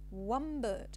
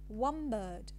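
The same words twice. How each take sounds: First: The word one ends with an m sound. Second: The word one ends with an m sound.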